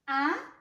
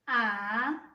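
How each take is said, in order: First: The pitch rises from middle to high. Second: The pitch dips low, then rises slightly. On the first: It sounds like asking a question. "You're having a question" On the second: It sounds helpless. "You're helpless"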